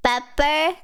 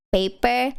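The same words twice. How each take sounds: First: Pepper with "peh" sound, rising; corrected to pepper. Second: Paper with "pay" sound, plain fall; paper, the word. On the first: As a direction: fix it to Pepper, short e. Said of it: "Or did I say pepper?". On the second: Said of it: "Did I say paper?". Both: Shown as a demonstration.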